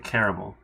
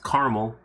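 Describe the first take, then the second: First: The word is said with three syllables. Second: The word is said with two syllables. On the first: "I think I say caramel" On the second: "it's only two syllables"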